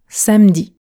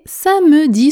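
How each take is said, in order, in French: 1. Le e du milieu ne se prononce pas. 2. Le e du milieu se prononce.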